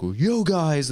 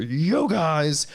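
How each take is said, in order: First: Mock hype greeting. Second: High far-off "Yo, guys" shoved at the lens; hammed-up YouTuber hello; hyped greeting up close. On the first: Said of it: "they're like". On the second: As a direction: greet the camera from an inch away. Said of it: "one inch from the front of the camera".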